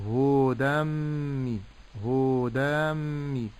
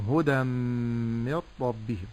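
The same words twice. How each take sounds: First: هدى مي with hu and da both wrongly stretched; overlong vowels. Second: هدى من ربهم with short hu-da and a long hummed m; short vowels, ghunnah. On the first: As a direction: drag it as huu-daam-mi in هدى مي. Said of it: "لا أمد في الهاء". («هدى مي» بمدّ الهاء والدال) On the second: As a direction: keep هدى brief, hold only the merged mīm before ربهم. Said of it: "ولكن أقول". («هدى من ربهم» دون مدّ الهاء والدال مع الغنّة) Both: Shown as a demonstration.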